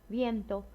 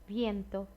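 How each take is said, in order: The two takes are said the same way.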